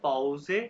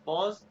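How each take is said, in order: First: It ends with a sounded final e vowel. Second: It ends on a z sound with no final vowel. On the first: This is the German word. "German में हर words pronounce करते हैं। तो ये है पाउजे" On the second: This is the English word. "ये इंग्लिश का वर्ड है पॉज"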